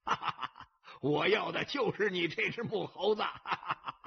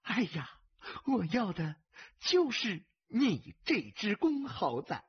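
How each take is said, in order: First: Big gambler's guffaw round the words; gleeful, gloating belly laugh; laughing heartily. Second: Delighted, silly-sweet woman's tease; giddy concubine. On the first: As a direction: burst out laughing, then crow it, raised in pitch. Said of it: "铁头大刚大笑着". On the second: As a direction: draw it out with doting delight. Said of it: "痴痴地笑着". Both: A narrator's reading.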